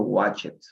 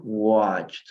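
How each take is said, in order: First: Watched said as two syllables, wat-ched, with the E sounded; Spanish-style watched with an extra syllable; wrong pronunciation. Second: Watched as one syllable, wotcht, silent E; watched clipped to one syllable; correct pronunciation. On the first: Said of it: "Yo no digo watched". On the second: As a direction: say watched with no E, ending in a crisp cht. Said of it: "Yo digo watched". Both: Shown as a demonstration.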